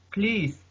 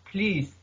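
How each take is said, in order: Both takes have the same delivery.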